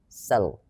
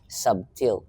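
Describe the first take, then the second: First: The word is said without a B sound. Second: The word is said with a clear B sound. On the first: "silent B" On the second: "it's a hard B"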